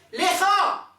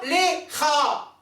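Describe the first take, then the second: First: LECHA said high and loud in one piece; joined syllables. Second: LECHA split as LE, pause, CHA, high; broken in two syllables. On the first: Teacher models the correct blessing word, lecha unbroken. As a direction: say lecha connected, no gap after LE. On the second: Teacher shows what not to say, lecha cut in two. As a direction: stop dead after a slow LE, then CHA. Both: Shown as a demonstration. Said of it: "pas lecha".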